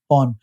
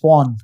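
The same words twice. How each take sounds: First: It is said with no R sound. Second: It is said with a slightly rolled R. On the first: The listener hears a different word. The speaker calls it wrong. "they are thinking it's P A W N" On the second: The listener hears the intended word. The speaker calls it right. "you have to slightly roll the R"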